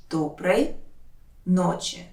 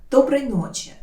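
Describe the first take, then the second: First: Careful breakdown of «Доброй ночи»; word by word. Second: Said in the usual way. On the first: Shown as a demonstration. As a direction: lower «Доброй», long pause, «ночи». Teacher separates words for learners.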